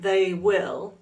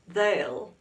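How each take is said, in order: First: It is said as two full words. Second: It is shortened into one contracted syllable. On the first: "Instead of they will" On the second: "the contracted form"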